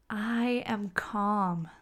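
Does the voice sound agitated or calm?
calm. The voice sounds slow, relaxed and calm. The feeling matches the words. The speaker calls it right. "You can hear the difference"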